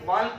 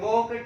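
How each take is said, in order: First: The L sound is pronounced in the word. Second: The L sound is silent in the word. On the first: The speaker calls it wrong. "यदि एल बोलते तो ये वाल्क बोला जाता" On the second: The speaker calls it right. "एल क्या हो गया, silent हो गया"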